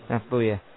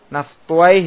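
First: The name ends with a damma and uyah. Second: The name ends with a fathah and wayh. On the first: "dengan mensukun wawunya dan membomah apa yang sebelumnya" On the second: "Naftuai dibaca?"

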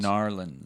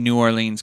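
First: The name is squeezed into two short syllables. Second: The name is said fully as separate words. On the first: This is how locals say the name. "they don't say it that way" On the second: This is how outsiders say the name. "we're saying New Orleans because we are from Utah"

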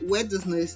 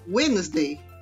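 First: The middle D sound is pronounced. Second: The middle D sound is silent. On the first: The speaker calls it wrong. "essa palavra me enrola a língua" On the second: The speaker calls it right.

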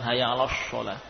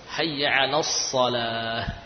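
First: The sad is pronounced like an sh sound. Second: The sad is pronounced as a heavy s sound. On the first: The speaker calls it wrong. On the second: The speaker calls it right.

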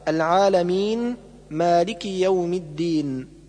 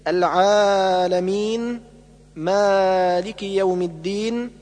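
First: The long vowels are held at normal length. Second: The long vowels are stretched beyond normal length. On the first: The speaker calls it right. "والصواب" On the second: The speaker calls it wrong. "الزيادة في المد الطبيعي أكثر من حركتين"

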